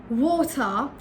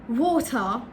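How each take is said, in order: The two takes are said the same way.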